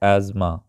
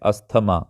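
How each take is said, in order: First: The t sound is silent in the word. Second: The t sound is pronounced in the word. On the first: The speaker calls it right. "इसका pronunciation है एज़मा। इसमें भी टी silent है" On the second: The speaker calls it wrong. "सब इसको बोलते हैं अस्थमा"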